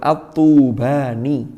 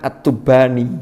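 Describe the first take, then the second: First: The first vowel is drawn out long. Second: The first vowel is cut short. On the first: Someone from the city. The speaker calls it right. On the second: Something about underwear. The speaker calls it wrong.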